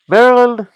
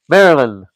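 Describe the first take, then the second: First: Intonation continues, as if opening a sentence. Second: Intonation closes, as a standalone heading. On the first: More words are about to follow. The speaker calls it wrong. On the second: It names a new topic on its own. The speaker calls it right.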